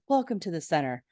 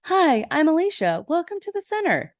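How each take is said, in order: First: Lightly voiced, understated welcome; a hint of a smooth host; Mister Mac. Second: Put-on high-pitched, sweet girlish greeting; put-on high voice of a welcoming girl. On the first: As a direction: imitate a leader's composed greeting, close to your own pitch. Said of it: "Mister Mac says". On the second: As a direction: imitate a sweet girl's bubbly welcome in a much higher voice. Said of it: "this really pretty, sweet girl".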